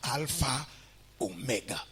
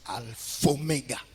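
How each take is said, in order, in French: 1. Les deux mots sont prononcés séparément. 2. Les deux mots s'enchaînent sans pause. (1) "on ne dit pas alpha, oméga. C'est une erreur" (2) "On fait l'élision... on prononce alpha-oméga"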